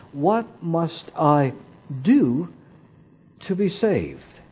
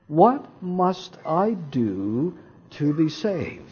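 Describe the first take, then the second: First: "do" set apart by pauses and leaned on; pause, land firmly on "do", pause, then finish softer; stress on "do". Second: Said in the usual way. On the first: Shown as a demonstration. Preacher showing where the emphasis goes, stress on "do". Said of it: "If I put the emphasis on do". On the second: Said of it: "Which word stands out".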